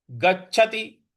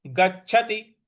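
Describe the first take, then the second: No difference in how they are said.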